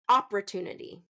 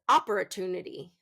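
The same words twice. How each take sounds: First: The stress is on the first syllable. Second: The same.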